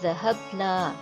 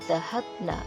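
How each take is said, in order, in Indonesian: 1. Vokal akhirnya panjang. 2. Vokal akhirnya pendek. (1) "nahnu naknya panjang" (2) "kalau hunna naknya pendek"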